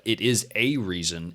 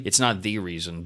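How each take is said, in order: First: "a" said as a full "ay", slowly; slow down and lean on "a" as one of several; stress on A. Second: "the" picked out as the one and only; stress on THE. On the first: Contrasts one reason with the sole. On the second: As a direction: lean on "the" to deny it is the sole one. Contrasts the sole reason with one. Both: Real, not acted.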